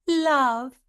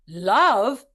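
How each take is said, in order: First: The word sounds delighted and pleasant. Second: The word sounds distressed and questioning.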